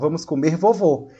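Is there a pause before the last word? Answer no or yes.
no. The words run together with no pause at all. The grandfather himself is what will be eaten. The speaker calls it wrong. "Se você não, não fizer essa pausa, vai ser como?"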